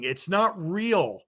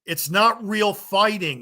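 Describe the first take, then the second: First: Not raised, slow and punched; stress on not. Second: Not said higher and slowly; stress on not. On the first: Vlogger repeats his point to fans, slow and stressed. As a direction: drag out not. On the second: Ranting vlogger hammers his point at fans, slow and stressed. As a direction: lean hard on the word not, drawn out. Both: Real, not acted.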